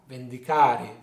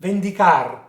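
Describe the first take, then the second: First: Vendicare with final E sounded, lower pitched; full word ending. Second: Vendicar loud, stressed on CAR, no final E; truncated ending. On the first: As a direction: stress CA and finish vendicare on the E. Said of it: "of a longer word". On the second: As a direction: punch CAR and stop at the r in Vendicar. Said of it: "a truncation or shortening". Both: Shown as a demonstration.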